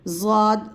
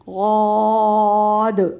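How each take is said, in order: First: It begins with a buzzing z sound. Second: It begins with a heavy, emphatic d sound. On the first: The speaker calls it wrong. "ज़ाद गलत है" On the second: The speaker calls it right. "गौद पढ़ेंगे मुंह खोल कर"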